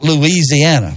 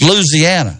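First: The word is said with more syllables. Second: The word is said with fewer syllables. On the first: The speaker calls it wrong. "you got too many syllables in that" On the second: The speaker calls it right. "It's Louisiana"

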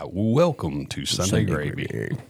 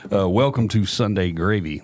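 First: It is said in a put-on announcer voice. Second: It is said in his own everyday voice.

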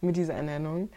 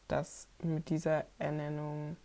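First: It is said in a lively, energetic voice. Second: It is said in a tired, low-energy voice.

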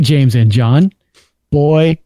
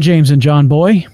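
First: There is a clear pause after 'John'. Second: 'John boy' runs together without a pause. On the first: 'Boy' starts a new exclamation. The speaker calls it right. "There you go. See, good job" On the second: The listener is called John boy as a nickname. The speaker calls it wrong. "Not the way nope. It read. There's punctuation"

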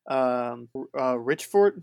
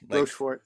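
First: The first syllable sounds like 'rich'. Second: The first syllable sounds like 'rosh'. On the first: The speaker calls it wrong. "Did I say that right?" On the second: The speaker calls it right. "Like Rochefort"

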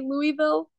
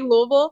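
First: It is said the way newcomers say it. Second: It is said the way locals say it. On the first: The speaker has only just arrived. The speaker calls it wrong. "when people first come to market, they say Louisville" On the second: The speaker has lived there long enough. The speaker calls it right. "try to sound like you're from here and then you say Louisville"

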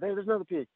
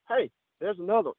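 First: It is said quietly. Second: It is said loudly.

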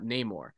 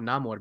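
First: The name is said with an English-style pronunciation. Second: The name is said with a Spanish-style pronunciation. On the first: "and not Namor"

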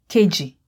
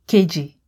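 Both takes have the same delivery.

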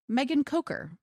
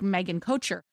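First: The surname has a hard k sound in the middle. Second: The surname has a soft ch sound in the middle. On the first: The speaker calls it right. "it's pronounced with a long O and a hard CH" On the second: The speaker calls it wrong. "This one looks like Megan Kocher"

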